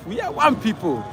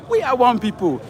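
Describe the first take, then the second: No difference in how they are said.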